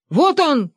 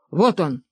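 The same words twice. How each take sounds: First: High, sudden hunting cry; excited shout. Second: Said in the usual way. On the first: A narrator's reading. Benedikt spots the prey and pounces, excited shout. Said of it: "крикнул Бенедикт".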